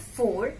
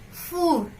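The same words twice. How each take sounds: First: It sounds like the English number four. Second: It is said with a French pronunciation. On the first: The speaker calls it wrong. "It's not four" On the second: The speaker calls it right. "it's four"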